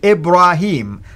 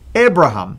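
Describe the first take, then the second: First: The name has a long 'ee' vowel. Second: The name has no long 'ee' vowel. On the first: This is the usual Quranic form of the name. "it's actually with the yeah, the way the Quran pronounced it" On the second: This is the older form before the name changed. "without the yeah, but it sounds like the Hebrew way of saying it"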